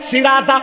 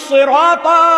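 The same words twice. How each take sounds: First: The first s sound is plain and light. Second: The first s sound is emphatic and heavy. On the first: It means a spiked wooden stick. The speaker calls it wrong. "ওইটা যদি আপনি পড়েন সিন দিয়া" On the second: It means a path or way. The speaker calls it right. "ওইটা সোয়াদ দিয়া শেষে আছে তো"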